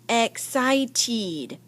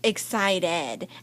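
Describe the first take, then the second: First: The ending is pronounced with a long 'eed' sound. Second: The ending is pronounced with a short 'id' sound. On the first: The speaker calls it wrong. "it doesn't sound like eed" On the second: The speaker calls it right. "It's excited"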